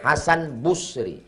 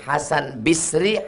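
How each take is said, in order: First: The surname's first syllable has the vowel u. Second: The surname's first syllable has the vowel i. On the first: "Ketiga-tiganya benar" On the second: "Ketiga-tiganya benar"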